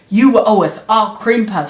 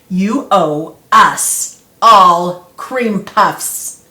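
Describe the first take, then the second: First: It is said at a normal speed. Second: It is said slowly and clearly.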